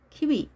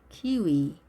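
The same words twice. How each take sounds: First: "키위" with both syllables cut short; short vowels. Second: "키위" with both syllables stretched long; long vowels. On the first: Teacher showing learners what to avoid, short "키위". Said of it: "이렇게 짧게 하는 것이 아니라". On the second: Teacher correcting for learners, long-vowelled "키위". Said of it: "둘 다 길게". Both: Shown as a demonstration.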